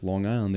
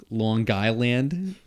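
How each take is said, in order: First: Said in the usual way. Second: Slow puzzled question, mocking the accent; puzzled strangers. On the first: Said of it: "And I was like". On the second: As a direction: drag it out like a baffled stranger. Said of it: "They were like".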